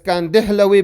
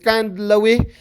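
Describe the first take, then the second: First: An extra vowel is inserted between d and l. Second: The d and l are said together, no vowel. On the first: This follows how the name is written. The speaker calls it wrong. "the Arabs they pronounce it as Kandihlawi" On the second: This follows the name of his home town. The speaker calls it right. "the correct way of saying it is Kandlawi"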